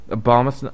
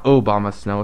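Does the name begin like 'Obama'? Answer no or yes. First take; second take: no; yes. First: The name begins with an 'ab' sound. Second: The name begins with an 'obam' sound. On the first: The speaker calls it right. "Abomasnow, not Obamasnow" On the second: The speaker calls it wrong. "not Obamasnow"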